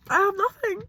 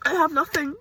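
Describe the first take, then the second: First: Higher, more broken repeat; the second time, breaking higher; crying. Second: Crying. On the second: Crying, repeated line. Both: Real, not acted.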